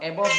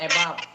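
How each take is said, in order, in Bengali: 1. দ্বিতীয় সিলেবলটি 'bov' এর মতো শোনাচ্ছে। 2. দ্বিতীয় সিলেবলটি 'bav' এর মতো শোনাচ্ছে। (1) "অ্যাবভ না"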